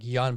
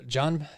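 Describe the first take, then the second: First: The name starts with a Y sound. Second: The name starts with an English J sound. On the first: The speaker calls it right. "they pronounce it with a Y, like Jan Blachowicz" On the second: The speaker calls it wrong. "It's a J"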